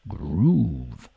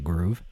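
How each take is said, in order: First: The word is drawn out with funky flair. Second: The word is said plainly and flatly. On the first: The speaker calls it right. "You got to say groove" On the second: The speaker calls it wrong. "You can't just say groove"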